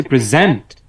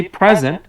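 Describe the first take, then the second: First: present stressed on ZENT; stress on latter part. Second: present stressed on PRE; stress on first part. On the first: Teacher explaining the second take, end syllable stressed. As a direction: hit the second syllable of present after a light first. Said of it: "পরের অংশে জোর দিয়েছি". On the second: Teacher explaining the first take, front syllable stressed. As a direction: hit the first syllable of present, let the rest drop. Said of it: "প্রথম অংশে জোর দিয়েছি". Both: Shown as a demonstration.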